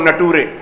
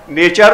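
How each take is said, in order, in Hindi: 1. लिखे अनुसार पढ़ा जाता है, 'na-too-re'। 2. सामान्य तरीके से कहा जाता है, 'nay-cher'। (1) "पढ़ो नटूरे" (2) "लिखो नेचर"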